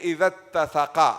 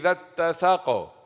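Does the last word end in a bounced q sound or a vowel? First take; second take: vowel; bounced q. First: The last word ends with a vowel after q. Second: The last word ends on a bounced, echoing q. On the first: The reading continues without stopping. "I will do qalqala or no? No" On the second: The reader stops at the end of the verse. "I will do it"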